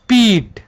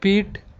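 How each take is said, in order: First: The vowel is said with force, lengthened. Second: The vowel is said without force, short. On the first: "बल लगाएंगे तो ... ये दीर्घी का रूप ले लेगा" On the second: "अगर बल नहीं लगा तो"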